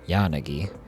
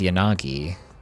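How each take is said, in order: First: The first syllable is stressed; the others are shorter. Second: All three syllables get equal stress and length. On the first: "you're putting more of the inflection on the first syllable" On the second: "is more like all of them are equal"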